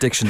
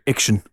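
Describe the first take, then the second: First: The word begins with a clear d sound. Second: The opening d sound is swallowed and dropped.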